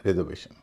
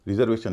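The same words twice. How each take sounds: First: रिजर्वेशन with "re" as in "rest", falling at the end; correct pronunciation. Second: रिजर्वेशन with a short "ri" opening, as the wrong way; रिजर्वेशन starting "ri" like "rid"; wrong pronunciation. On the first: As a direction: open रिजर्वेशन with "re", not "ri". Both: Shown as a demonstration. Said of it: "रिजर्वेशन नहीं".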